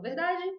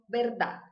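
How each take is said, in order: First: It is pronounced with Portuguese sounds. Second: It is pronounced with Spanish sounds. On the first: "em português eu falo verdade" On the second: "em espanhol, verdade"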